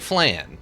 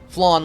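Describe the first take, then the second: First: The vowel is not like the one in lawn. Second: The vowel sounds like the one in lawn. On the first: "It looks like flan" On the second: "Flan like lawn"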